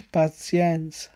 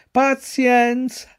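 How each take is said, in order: First: Slow, drawn-out sigh of Pazienza; resigned sigh. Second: Pazienza higher and very slow, drawn out; resigned, chewing. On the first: Pinocchio alone in the stable, resigned sigh. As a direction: let Pazienza sink slowly, resigned. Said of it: "disse dentro di sé". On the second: Pinocchio chewing straw, sighing resignedly. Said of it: "ripeté continuando a masticare". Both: A narrator's reading.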